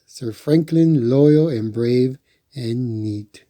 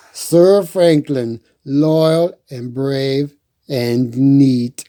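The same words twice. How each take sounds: First: Said in the usual way. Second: Grand proclamation. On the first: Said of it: "Of course". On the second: A narrator's reading. Reading the shield's words out, slow and grand. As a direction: announce it like a herald. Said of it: "Let's see".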